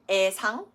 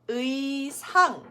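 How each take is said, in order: First: The first vowel is a plain e sound. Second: The first vowel is a gliding ui sound. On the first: The speaker calls it wrong. "So it's not 애자 or 애상" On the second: The speaker calls it right. "It does need to be said as 의자, 의상"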